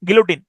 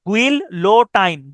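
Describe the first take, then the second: First: It is said normally, ending 'teen'. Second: It is said letter by letter, ending 'tine'. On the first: It is the real pronunciation. "উচ্চারণটা হচ্ছে গিলোটিন" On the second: It helps to remember the spelling. "কিন্তু আপনি উচ্চারণ করবেন এভাবে"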